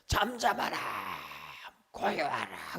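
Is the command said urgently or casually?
urgently. It is commanded urgently and dramatically.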